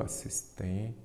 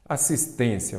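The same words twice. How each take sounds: First: "Assistência" broken softly into syllables, with a long pause before the end; split into syllables. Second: Said in the usual way. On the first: Shown as a demonstration. Teacher separating a word for students, "Assistência" split into syllables. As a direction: say "Assistência" quietly, syllable by syllable, holding off the last one. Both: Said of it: "vamos separar em sílaba".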